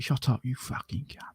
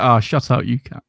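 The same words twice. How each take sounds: First: Quiet, menacing whispered threat; angry. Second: Playful, voiced telling-off; light, matey jibe with no bite; jovial banter. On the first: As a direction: whisper the insult with real bite behind it. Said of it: "there's anger behind it". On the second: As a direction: say it as friendly banter between mates. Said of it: "with a bit of jovialness". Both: Shown as a demonstration.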